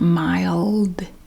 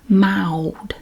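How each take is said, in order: First: The L is pronounced as a clear consonant. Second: The L sounds like a W vowel. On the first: The speaker calls it wrong. "It's not mild. See, that hurts my mouth" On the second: The speaker calls it right. "We don't pronounce the L like you might be used to"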